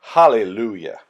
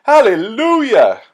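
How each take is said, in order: First: Hallelujah lower and reverent, gently falling. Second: Joyful hallelujah. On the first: Storyteller as the elders bow in worship, reverent and lower. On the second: Storyteller cheering the healing for the children, high and loud. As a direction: belt out Hallelujah with joy. Celebrating the healed hand. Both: Acted.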